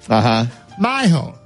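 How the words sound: The middle consonant is a soft Spanish-style sound. "he loves to do the Spanish flair"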